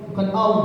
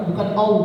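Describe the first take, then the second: No difference in how they are said.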